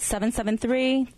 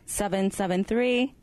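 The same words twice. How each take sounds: First: The number is said at a normal pace. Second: The number is said slowly.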